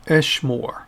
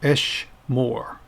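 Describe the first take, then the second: First: Said in the usual way. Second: "Esh Moore" slowly, in two separate beats; pronounced for repetition. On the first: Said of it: "And one more time". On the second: Shown as a demonstration. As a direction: model "Esh Moore" for learners to copy, slowly. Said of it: "pronounce them after me".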